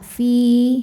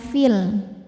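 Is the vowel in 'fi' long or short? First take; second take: long; short. First: The vowel is held long, then stops. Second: The vowel is short, joined to the next word. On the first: The reader pauses on this word. "panjang dua harokat" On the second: The reader joins it to the next word. "Kalau wasal jadi pendek fi-nya"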